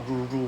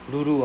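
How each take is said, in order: First: It starts with an English R sound. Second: It starts with a light L-like sound. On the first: The speaker calls it wrong. "it's not Ruru ah" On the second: The speaker calls it right. "it's Lulu ah, like Lululemon ah"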